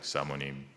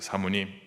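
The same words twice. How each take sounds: First: It is said in a lowered, deep voice. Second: It is said in an ordinary speaking voice.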